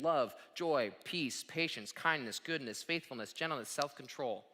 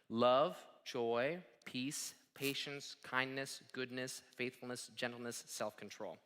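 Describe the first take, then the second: First: The list is said at a quicker pace. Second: The list is said at a slower pace.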